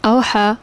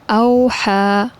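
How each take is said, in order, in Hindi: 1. यह अक्षर अंग्रेज़ी के v की तरह बोला जाता है। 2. यह अक्षर गोल होंठों के साथ w की तरह बोला जाता है। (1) "अगर गलत अगर कोई इस तरह पढ़े" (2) "वाव को मैंने सही तरह से अदा किया है"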